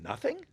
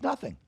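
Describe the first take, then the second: First: "Nothing" as a high, rising question; incredulous echo. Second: "Nothing" as a dismissive, falling statement; offhand answer. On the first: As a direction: lift "Nothing" into a disbelieving question. He echoes her answer in disbelief. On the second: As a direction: close "Nothing" off with a falling tune. Girlfriend's offhand answer, retold. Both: Retold or imitated.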